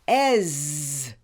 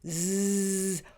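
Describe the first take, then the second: First: A short vowel followed by a buzzing sound. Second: A buzzing sound with voice. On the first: "pronounced with a short vowel E and a voice" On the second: "pronounced with a voice"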